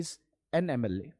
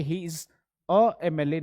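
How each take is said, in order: First: He is an एमएलए said as the right example, with an before एमएलए; right form. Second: He is a एमएलए said as the wrong example, with a on एमएलए; wrong form. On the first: Teacher giving students the correct sentence. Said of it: "बल्कि हम कहेंगे". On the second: Teacher giving students the wrong example. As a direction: read he is a एमएलए as the mistake. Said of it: "हम ये नहीं कहेंगे". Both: Shown as a demonstration.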